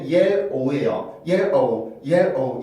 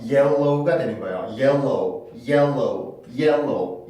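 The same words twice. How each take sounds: First: "yellow"를 '옐-오우'로; "yellow"의 둘째 음절에 L 없이; 음절대로 끊은 발음. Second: "yellow"를 '옐로우'로 L을 이어서; "yellow"의 L 힘이 둘째 음절까지 넘어가게. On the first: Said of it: "음절상으로 봤을 때는". ("yellow", L을 첫 음절 끝에만 두고) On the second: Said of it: "옆에까지 영향이 미쳐져서". ("yellow", L이 하나 더 있는 것처럼) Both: Shown as a demonstration.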